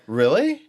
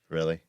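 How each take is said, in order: First: It sounds enthusiastic and interested. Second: It sounds skeptical and negative.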